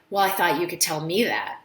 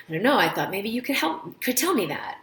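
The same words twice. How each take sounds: First: A touch of snippy challenge; mildly testy, like she's baiting you; lightly imitated snippy patient. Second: Light, helpful and friendly, rising a little; a mild friendly patient, lightly voiced. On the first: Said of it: "I can't believe she was so snippy". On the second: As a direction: answer kindly, just trying to help. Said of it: "a really friendly tone".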